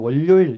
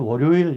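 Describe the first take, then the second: First: It is said with Busan dialect intonation. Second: It is said with standard Seoul intonation. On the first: "부산 사람은 월요일 이러거든요" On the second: "서울 사람들 월요일 이렇게 그러더라고요"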